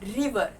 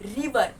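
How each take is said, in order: Both takes have the same delivery.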